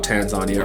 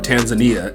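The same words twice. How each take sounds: First: It is said in a non-American pronunciation. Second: It is said in an American pronunciation.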